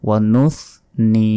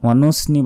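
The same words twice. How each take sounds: First: The middle consonant is a th sound. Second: The middle consonant is a plain s sound. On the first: The speaker calls it right. "জিহ্বা বের করে এখানে" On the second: The speaker calls it wrong. "ওয়ানুসনি বললে ভুল হবে"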